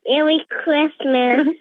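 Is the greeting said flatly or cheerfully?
cheerfully. It is said in a bright, cheery way.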